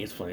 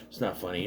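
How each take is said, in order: First: Said in the usual way. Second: Muttered low and soft, pretending to scold; mock stern denial. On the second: Host pretending the joke isn't funny, muttered. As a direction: deny it under the breath.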